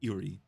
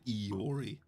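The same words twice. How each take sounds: First: The first vowel is said very quickly. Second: The first vowel is drawn out longer. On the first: The speaker calls it right. "you have to like be really quick on the I" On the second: The speaker calls it wrong. "rather than Iori"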